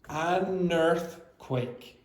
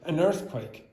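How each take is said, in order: First: The phrase is said slowly. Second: The phrase is said quickly. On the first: The speaker calls it right. "because you read it slowly, you would say something like an earthquake" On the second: The speaker calls it wrong. "You're not going to say it quickly"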